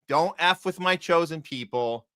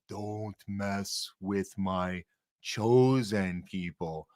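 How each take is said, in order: First: It is said in his normal voice. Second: It is said in a deep voice.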